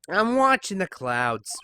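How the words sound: It is said with a sassy, dismissive attitude.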